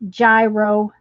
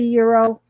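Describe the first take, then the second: First: The word begins with a J sound. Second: The word begins with a Y sound. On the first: The speaker calls it wrong. "a lot of people pronounce it gyro" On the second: The speaker calls it right. "It's it's supposed to be euro"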